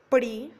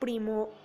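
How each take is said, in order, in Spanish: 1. La última sílaba se omite. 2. La última sílaba se pronuncia completa. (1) "pérdida del elemento al final de la palabra" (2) "se debería decir primo"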